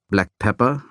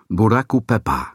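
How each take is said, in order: First: It is said with ordinary English sounds. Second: It is said with Japanese-style syllables and vowels. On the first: The speaker calls it wrong. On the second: The speaker calls it right. "sondern Buraku Pepper"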